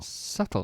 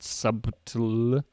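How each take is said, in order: First: No B sound is heard in the middle. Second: A B sound is heard in the middle. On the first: The speaker calls it right. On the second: The speaker calls it wrong. "Not pronounced. Not subtle"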